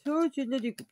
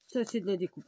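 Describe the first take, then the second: First: Louder and higher on "Ça, c'est de la découpe"; mock proud exclaim. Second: Said in the usual way. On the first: Shown as a demonstration. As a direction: show off an ironic cutting job.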